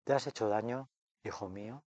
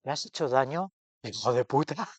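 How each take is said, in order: First: Put-on a soft, tender question from mother to child. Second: Cheeky, blunt twist on the tender line; mock harsh mother. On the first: A narrator's reading. Mother's heart gently asks her fallen son. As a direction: ask it gently, as if soothing a hurt child. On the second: Friend retells her altered ending with mock bite. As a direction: fling the insult out with mock bite. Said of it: "Dice: "No, pero hubiera pe-, un pequeño matiz".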